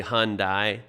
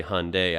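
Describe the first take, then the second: First: "Hyundai" ending in "dye", as "hahn-dye"; variant American pronunciation. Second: "Hyundai" ending in "day", as "hahn-day"; variant American pronunciation. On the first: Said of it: "some Americans say". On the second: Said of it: "Some Americans say". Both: Shown as a demonstration.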